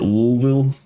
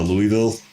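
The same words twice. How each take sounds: First: The name is said in the local Kentucky pronunciation. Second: The name is said in an outsider pronunciation.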